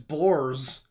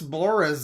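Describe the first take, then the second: First: The name sounds like the word 'bores'. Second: The name does not sound like 'bores'. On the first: The speaker calls it wrong. "it's not like the word bores" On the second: The speaker calls it right. "I think it is Chris Boris"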